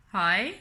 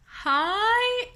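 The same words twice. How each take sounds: First: Said in the usual way. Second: Very high, drawn-out hi; bewildered greeting. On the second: Retold or imitated. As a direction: squeak a long, comically unsure hello. Second greeting, exaggerated bewilderment.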